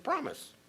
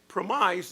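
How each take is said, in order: First: It sounds like the ordinary word promise. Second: It sounds like the second part of compromise. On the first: It is the ordinary word for a pledge. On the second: It is the second half of the word compromise.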